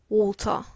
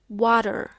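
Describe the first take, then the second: First: It is said with a British accent. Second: It is said with an American accent. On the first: "in British English, it's called water" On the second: "in American English, it's called water"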